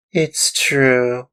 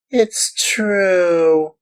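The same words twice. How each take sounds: First: High, loud tearful admission. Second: Even higher, louder wailing repeat; wailing in tears. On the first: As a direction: confess it in tears like a small boy. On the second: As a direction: let the plea break up into a wail. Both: Acted. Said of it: "cried Pinocchio in tears".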